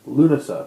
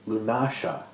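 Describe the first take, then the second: First: The middle consonant is a plain s sound. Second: The middle consonant is an sh sound. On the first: "it's taken me a long time to pronounce it Lunasa" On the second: "with a S H sound and the stress on a different syllable"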